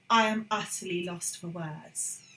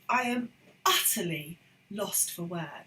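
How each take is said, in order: First: Utterly is said plainly without extra emphasis. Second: Utterly is said with strong emphatic stress. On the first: The speaker calls it wrong. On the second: The speaker calls it right. "The emphasis, the emphatic stress is there"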